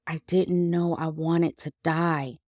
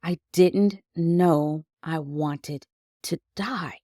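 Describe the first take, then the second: First: Numb. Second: Slow, numb repetition; a hushed, stunned echo of the thought. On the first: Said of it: "all I kept saying was". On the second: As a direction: let it sink in, dazed and slow. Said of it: "I was numb and stunned". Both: Retold or imitated.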